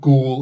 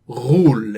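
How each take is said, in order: First: It begins with a plain English hard g sound. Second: It begins with a throaty, non-English gh sound. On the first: This is the English pronunciation of the word. "you can pronounce it Ghoul if you want" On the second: This is the original Arabic pronunciation. "that's the proper Arabic uh, pronunciation"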